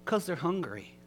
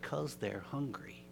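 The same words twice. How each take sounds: First: Higher, stressing "'Cause"; raised emphatic repeat. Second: Much softer, slow and plain; soft simple answer. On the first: Shown as a demonstration. Preacher repeating Dudley's answer with emphasis. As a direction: repeat it to make it land. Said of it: "Doesn't that crush you?". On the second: Retold or imitated. Dudley quietly answering the angry driver, soft and slow. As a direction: say it gently, no fuss. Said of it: "Dudley simply said".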